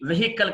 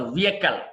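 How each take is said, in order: First: వెహికల్ with the h sounded; wrong pronunciation. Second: వెహికల్ with a silent h; correct pronunciation. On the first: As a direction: say వెహికల్ as "ve-HI-kal". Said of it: "కాదు". (వెహికల్ "హ" పలికి తప్పుగా) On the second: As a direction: say వెహికల్ as "VEE-uh-kal". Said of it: "వెహికల్ కాదు". (వెహికల్ "వియెకల్" అని) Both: Shown as a demonstration.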